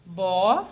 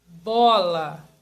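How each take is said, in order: First: "Bola" as a stretched bo, long pause, then la; syllable by syllable. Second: Said in the usual way. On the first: Shown as a demonstration. Teacher asking pupils to think, bola said syllable by syllable. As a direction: pull "Bola" apart into two slow pieces. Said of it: "Vamos falar devagar". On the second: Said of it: "Como eu separo essa palavra bola?".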